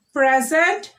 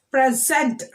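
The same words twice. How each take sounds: First: "Present" as a noun, PRE-sent; first-syllable stress. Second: "Present" as a verb, pre-SENT; second-syllable stress. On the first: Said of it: "stressing on the first syllable". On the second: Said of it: "we are stressing on the second". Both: Shown as a demonstration.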